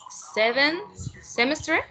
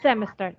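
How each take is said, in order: First: Semester said as "semestri" with a rising question tune; a tentative "semester" ending in an extra "i" sound; unsure pronunciation. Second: "Semester" said cleanly as SEM-es-ter with a falling close; correct pronunciation. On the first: Real, not acted. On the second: Shown as a demonstration. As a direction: model the word "Semester" clearly for the student. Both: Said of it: "how do you say semester?".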